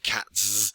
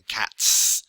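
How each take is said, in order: First: The plural ending is a voiced z sound. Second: The plural ending is an unvoiced s sound. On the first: The speaker calls it wrong. "rather than" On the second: The speaker calls it right. "If it's unvoiced, you would say s"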